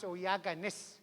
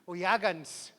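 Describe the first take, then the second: First: The ending is a separate, full syllable. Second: The ending is squeezed quickly into the last syllable. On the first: The speaker calls it wrong. "You sound like a robot" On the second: The speaker calls it right. "See how quick and fast that is?"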